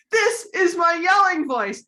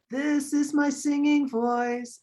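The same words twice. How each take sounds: First: High, loud demonstration yell. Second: Sung on sustained higher notes, slowly; singing voice. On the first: Teacher at children's concert demonstrating, yelling voice. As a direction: yell it out for a crowd to copy. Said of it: "And then I would yell". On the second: Teacher leading children to copy her, singing voice. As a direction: sing it out, holding each word. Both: Shown as a demonstration.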